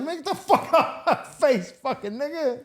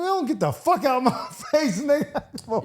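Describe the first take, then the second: First: Much higher, far-off mock shout; mock brush-off yell. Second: Hammed-up dismissive yell; mock brush-off. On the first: Telling off the Coach Carter actor, hammed-up shout. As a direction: ham up the brush-off with a laugh. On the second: Telling off a washed-up actor, mock shout.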